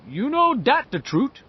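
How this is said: It is said in a French-Canadian accent.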